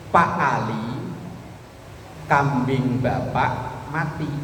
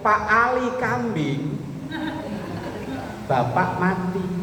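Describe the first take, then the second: First: The pause comes right after the word Ali. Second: The pause comes right after the word kambing. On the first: The listener is told that his goat died. "Itu kan artinya kita memberitahukan kepada Pak Ali, kambingnya mati" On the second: The man himself, called a goat, died. "Tapi kalau lain ngomongnya begini"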